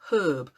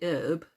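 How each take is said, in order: First: The word begins with an audible h sound. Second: The word begins without any h sound. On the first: "We added the H" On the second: "the way the Americans say herb, they say herb"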